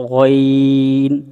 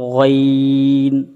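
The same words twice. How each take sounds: The two takes are said the same way.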